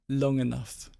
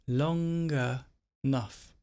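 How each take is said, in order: First: The phrase is said quickly, run together. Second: The phrase is said slowly, sound by sound.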